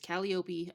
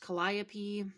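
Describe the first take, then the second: First: The name is said the Greek way. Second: The name is said the American English way. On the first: "she is from Greece, so it's Calliope" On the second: "would be pronounced Calliope here in the United States"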